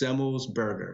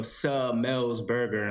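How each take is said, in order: First: The name is said quickly, run together. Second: The name is said slowly, syllable by syllable. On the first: The speaker calls it right. "So you just say it fast" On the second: The speaker calls it wrong. "they go Semmelsberger, and then it sounds weird"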